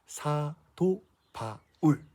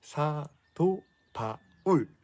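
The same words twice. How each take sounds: First: Put-on very slow, spelled-out name for kids to echo; slowly drawn-out teacher prompt; slow call to repeat. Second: Very slow, spelled-out name again for echo; slowly drawn-out teacher prompt; slow call to repeat. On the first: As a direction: draw each syllable out to be repeated. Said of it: "따라해볼까요?". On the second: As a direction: stretch the name out syllable by syllable. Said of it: "누구라고요?". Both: Shown as a demonstration.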